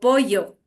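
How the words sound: The double L has a coastal Ecuadorian sound. "Pero en la costa muchas veces no digo así, digo pollo"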